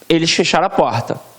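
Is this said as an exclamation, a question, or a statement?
statement. It is said with a plain, falling statement tune. "com o ponto"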